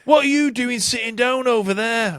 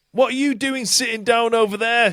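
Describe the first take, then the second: First: A higher, put-on [name] shout at a seated fan; hammed-up pop star scolding the crowd; [name] impression. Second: Mock [name] shout. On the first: Host doing [name] scolding a seated fan, hammed-up shout. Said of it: "pretty good fucking [name] impression". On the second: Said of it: "she shouted".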